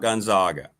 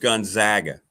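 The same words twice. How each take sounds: First: The middle syllable sounds like 'zog'. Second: The middle syllable sounds like 'zag'. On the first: The speaker calls it wrong. "It's not Gonzaga because they're not the Zogs" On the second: The speaker calls it right. "it's Gonzaga ... they're the Zags"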